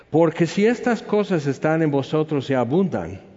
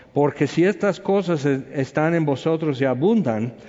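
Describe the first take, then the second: No difference in how they are said.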